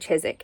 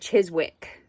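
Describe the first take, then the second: First: It is said differently from its spelling. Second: It is said letter by letter as spelled. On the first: The speaker calls it right. "it's said Chiswick" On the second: The speaker calls it wrong. "spelled like Chiswick"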